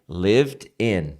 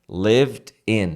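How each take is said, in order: No difference in how they are said.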